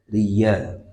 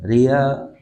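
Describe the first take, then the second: First: The y sound is clearly pronounced. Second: The y sound is dropped, like a long a. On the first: The speaker calls it right. "demikian ya-nya diucapkan" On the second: The speaker calls it wrong. "banyak yang membaca ya-nya seperti alif, ria, salah"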